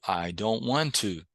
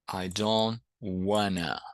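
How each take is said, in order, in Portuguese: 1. As palavras 'want to' são ditas por extenso. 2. As palavras 'want to' são reduzidas para 'wanna'. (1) "pode ser pronunciado I don't want to" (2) "pode ser pronunciado I don't wanna"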